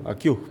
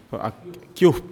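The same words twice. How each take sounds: First: Akiup with the stress on the U, kept low and short. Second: Akiup said with a questioning rise at the end; local pronunciation. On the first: Teacher repeats akiup to show the stress on the U. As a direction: lean on the U in akiup, let the pitch drop. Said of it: "con el acento en la U". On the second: Teacher asks the class how they say Akiup. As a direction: say Akiup the way people say it here, ending up. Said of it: "¿Cómo la pronuncian aquí?". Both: Shown as a demonstration.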